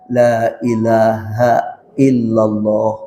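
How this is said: It is said slowly and gently. The dying person is guided calmly. The speaker calls it right. "gitu pelan-pelan"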